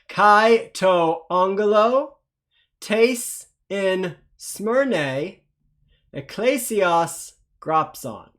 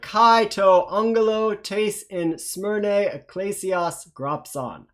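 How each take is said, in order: First: It is read slowly. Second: It is read faster.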